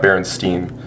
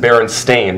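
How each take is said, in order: First: The last syllable sounds like 'steen'. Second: The last syllable sounds like 'stain'. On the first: This is how it was remembered from childhood. The speaker calls it wrong. "not Berenstain" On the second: This is the actual spelling of the name. The speaker calls it right. "it's so come to light that it's a Berenstain"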